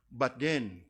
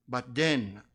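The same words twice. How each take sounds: The two takes are said the same way.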